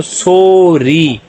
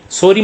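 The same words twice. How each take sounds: First: "sorry" stretched into long "सो" and long "री"; syllable by syllable. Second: Said in the usual way. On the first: Shown as a demonstration. Teacher reading both syllables together, "sorry" slowly drawn out. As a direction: draw out each half of "sorry". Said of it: "दोनों को मिला के पढ़ेंगे". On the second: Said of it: "sorry मतलब आवाज".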